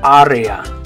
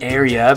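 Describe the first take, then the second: First: The vowels are clear Spanish a, e, a. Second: The vowels have English vowel sounds. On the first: "but in Spanish you're going to say" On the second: "in English would be the word area"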